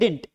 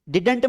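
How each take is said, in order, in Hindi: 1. बीच का d sound पूरी तरह गिर जाता है। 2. बीच का d साउंड साफ़ बोला जाता है। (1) "डिंट बोलते हैं" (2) "डिडंट मत बोलना"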